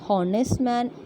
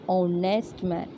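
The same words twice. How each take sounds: First: The first word begins with an h sound. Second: The first word begins with a vowel sound. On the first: The speaker calls it wrong. "it is not honest man" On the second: The speaker calls it right. "the letter H is silent in those two words"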